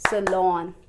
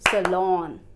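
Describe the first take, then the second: Both takes have the same delivery.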